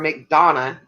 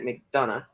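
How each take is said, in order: First: The name is said the local Georgia way. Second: The name is said the common outsider way. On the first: This is how local people say it. "as we say it" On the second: This is how most other people say it. "most people will try to pronounce it"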